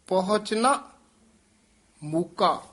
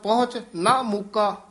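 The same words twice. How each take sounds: First: 'Na' joins the word before, then a brief stop. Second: 'Na' joins the word after, with no stop. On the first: The speaker calls it right. "ਇਹ ਠਮਕ ਜ਼ਰੂਰ ਲਾਉਣੀ ਹੈ" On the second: The speaker calls it wrong. "ਤਾਂ ਅਰਥ ਦਾ ਬਹੁਤ ਗਲਤ ਅਰਥ ਹੋ ਜਾਣਾ ਹੈ"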